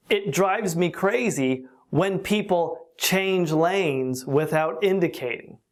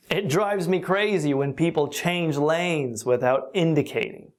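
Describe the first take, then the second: First: Slow and deliberate teaching read; slow example. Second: Said in the usual way. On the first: Shown as a demonstration. Teacher giving learners an example sentence, slowly.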